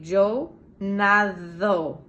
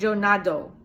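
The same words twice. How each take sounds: First: Yo nado with a soft th-like d in nado; Spanish soft d. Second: Yo nado with a hard English d in nado; wrong American nado, hard d. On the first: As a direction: say nado with the tongue between the teeth, like "natho". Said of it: "Hear the difference?". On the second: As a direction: stop the d in nado fully, like English "dough". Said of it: "not yo nado". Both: Shown as a demonstration.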